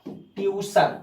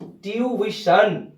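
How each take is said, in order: First: ट्यूशन said as tyu-shun, the common wrong way; wrong pronunciation. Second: ट्यूशन drawn out very slowly as tyoo-i-shun; correct pronunciation. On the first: Teacher showing students the wrong way to say it. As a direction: say ट्यूशन as tyu-shun with a short first part. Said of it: "ट्यूशन सही शब्द नहीं है". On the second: Teacher slowly showing students the right way to say it. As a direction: stretch ट्यूशन into slow, clear syllables, tyoo-i-shun. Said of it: "इसका सही होता है". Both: Shown as a demonstration.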